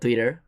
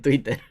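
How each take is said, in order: First: The word is pronounced with English sounds. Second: The word is pronounced with Spanish sounds. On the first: "digo Twitter en lugar de" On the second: "en lugar de Twitter"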